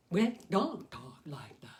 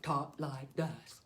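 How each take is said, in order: First: Slow whispered, overmouthed words; exaggerated mouth talk. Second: Slow, overdone mouthing of each word; exaggerated mouth talk. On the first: Puppeteer demonstrates how people don't talk, slow whispered mouthing. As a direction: mime the big jaw moves nearly voiceless. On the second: Puppeteer demonstrates how people don't talk, slow exaggerated mouthing. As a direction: show the wrong way, big jaw moves. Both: Shown as a demonstration.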